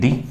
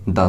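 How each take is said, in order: First: The word ends in a long 'ee' vowel. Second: The word ends in a short 'uh' vowel. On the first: It comes before a vowel sound. "जब भी कोई vowel sound होती है ... तब तो इसको हम बोलेंगे दी" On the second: It comes before a consonant sound. "अगर कंसोनेंट साउंड है ... दा से होगा"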